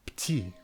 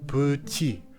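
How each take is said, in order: First: The first vowel is dropped entirely. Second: The first vowel is said with rounded lips. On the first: "or even smooth it away as you pour" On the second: "Round weak e to mange, petit"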